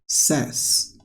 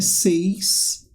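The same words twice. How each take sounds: First: The vowel sounds like the one in 'set'. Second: The vowel sounds like the one in 'say'. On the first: The speaker calls it right. "é says" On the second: The speaker calls it wrong. "Não é says"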